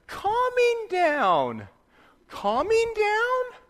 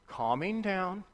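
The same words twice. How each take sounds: First: High, very slow child mocking his father's words; sing-song, drawn out and squeaky, teasing dad; mocking imitation of dad. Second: Put-on softly hushing the kids to calm them; gentle calming. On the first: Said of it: "the little one would make fun of me". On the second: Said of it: "I'd go".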